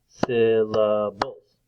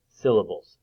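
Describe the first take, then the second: First: "syllables" very slowly, beat by beat; split into syllables. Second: Said in the usual way. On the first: Shown as a demonstration. Teacher clapping out the parts for children, "syllables" slowly split. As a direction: stretch out each part of "syllables". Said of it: "clap out the different parts". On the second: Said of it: "If you listen to it".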